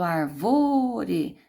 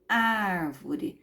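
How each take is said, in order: First: The stress is on the second syllable. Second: The stress is on the first syllable. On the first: The speaker calls it wrong. "Eu não falo arvore" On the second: The speaker calls it right. "eu falo árvore. Não é a última, não é a penúltima, é a antepenúltima"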